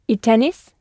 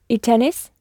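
Both takes have the same delivery.

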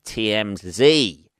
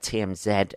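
First: It is said the American way. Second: It is said the British way.

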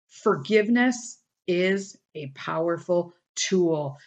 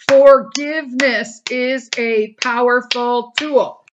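First: It is said at a normal volume. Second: It is said at a louder volume.

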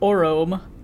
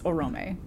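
First: The final E is silent. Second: The final E is pronounced. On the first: The speaker calls it wrong. "if you were just making the E silent" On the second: The speaker calls it right. "the umlaut is just there to tell you to pronounce that letter"

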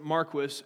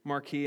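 First: The name is said in a non-French, anglicized way. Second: The name is said in a French-sounding way. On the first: The bearer does not want to be taken for French. "they pronounce it Marquis, and I quote, because my great-granddad never wanted to be mistaken for a Frenchman" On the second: The name keeps its original French form. "the proper pronunciation is Marquis, and I think it sounds a little smoother"

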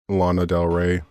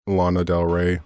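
First: The name is said in a displeased tone. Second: The name is said in a displeased tone.

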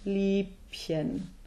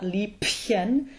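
First: The B is soft but still unvoiced. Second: The B is pronounced hard like a P. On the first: The speaker calls it right. "somewhat softer, but still unvoiced" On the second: The speaker calls it wrong. "it's not Liebchen"

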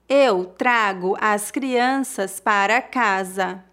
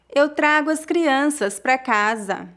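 First: The sentence is spoken slowly and carefully. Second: The sentence is spoken at a natural speed. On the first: "uma vez mais devagar" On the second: "outra vez mais naturalmente"

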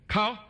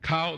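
First: The vowel is short with a high pitch. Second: The vowel is short with a level pitch. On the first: It means to investigate. "short high sound" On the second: It means the knee. "the short level"

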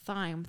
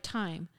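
First: The word begins with a th sound. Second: The word begins with a plain t sound. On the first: "some parts of the UK where they actually do say it like thyme" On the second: "pronounce thyme without the H, like thyme"

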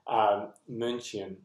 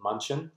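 First: The name is said with German vowel sounds. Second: The name is said with English vowel sounds. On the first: This is how locals say the city's name. "in the German way" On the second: This is how foreign soldiers said the city's name. "they called it"

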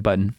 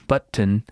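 First: It is said quickly with the syllables run together. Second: It is said in two clearly separated syllables. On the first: "I just kind of breeze through it" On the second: "Like you really chunk it into a couple syllables"

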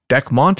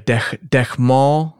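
First: The name is said with a plain English pronunciation. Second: The name is said with a French-style pronunciation. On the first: "that's probably easier to say anyways" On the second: "like kind of like a French kind of a deal"

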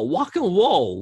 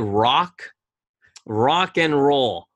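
First: It is said in an imitated Chinese accent. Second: It is said in the speaker's plain accent.

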